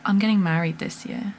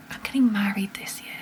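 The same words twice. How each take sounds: First: Said in the usual way. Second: Soft unvoiced whisper to herself; whispered disbelief. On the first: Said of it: "repeated as whisper". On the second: Real, not acted. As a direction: whisper "I'm getting married this year" in awe. Repeats the line whispered.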